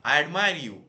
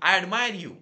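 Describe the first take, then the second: First: Echoed shout. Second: High, very loud shout; screamed call. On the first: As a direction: send the shout back as an echo. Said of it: "पर्वताकडून पुन्हा आवाज आला". (डोंगरातून आलेला मोठा प्रतिध्वनी) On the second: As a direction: yell it out toward the mountain. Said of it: "चिरकला". (डोंगराकडे चिरकून) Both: A narrator's reading.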